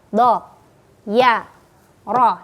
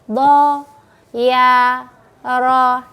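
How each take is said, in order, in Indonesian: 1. Setiap suku kata pendek, satu ketukan masing-masing. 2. Setiap suku kata dipanjangkan dengan panjang. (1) "bacanya pendek, satu ketukan saja" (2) "jangan dipanjangkan"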